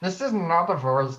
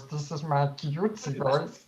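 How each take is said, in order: First: Said in the usual way. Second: Slow, soft and cutesy; cutesy baby talk. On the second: Shown as a demonstration.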